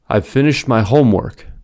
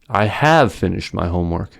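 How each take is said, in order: First: The stress falls on the word homework. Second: The stress falls on the word have. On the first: The speaker simply states a fact. "the content word homework is stressed" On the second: The speaker shows annoyance or pride. "The second sentence has an unusual focus word, have"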